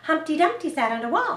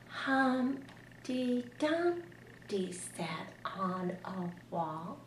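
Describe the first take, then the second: First: It is read fast. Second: It is read very slowly.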